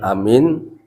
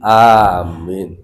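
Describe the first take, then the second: First: The first vowel is said short. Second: The first vowel is drawn out long. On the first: It means trustworthy. The speaker calls it wrong. "bukan amin" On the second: It means grant our prayer. The speaker calls it right. "Amin itu mat wajib muttasil"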